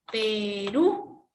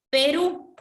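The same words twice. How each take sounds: First: Perú with the Ú stretched and rising; stress on final Ú. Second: Said in the usual way. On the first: Shown as a demonstration. Teacher showing students where Perú is stressed, long rising final Ú. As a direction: draw out the last syllable of Perú. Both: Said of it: "En la U está la mayor fuerza de voz".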